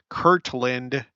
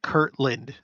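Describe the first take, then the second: First: The middle t is carefully and clearly pronounced. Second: The middle t is blurred and sounds like k. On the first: "Do I need to like pronounce it" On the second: "it's just the way that I talk"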